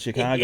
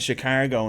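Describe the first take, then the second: First: It is said with the standard pronunciation. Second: It is said with a local Irish pronunciation. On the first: The speaker calls it right. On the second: The speaker calls it wrong.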